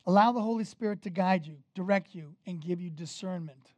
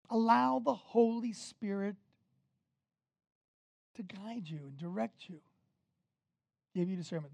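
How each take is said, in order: First: Said in the usual way. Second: Long pause after "Spirit", then softer; "give you discernment" set apart quietly after a pause; deliberate repetition. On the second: Shown as a demonstration. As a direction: spread out "Allow the Holy Spirit", then drop softly through "guide you and direct you". Repeats the point for emphasis.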